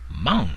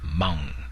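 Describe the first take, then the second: First: The word is said with a high tone. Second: The word is said with a long tone. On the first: It means to drive. The speaker calls it right. "in the high tone" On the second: It means darling or honey. The speaker calls it wrong. "in the long tone"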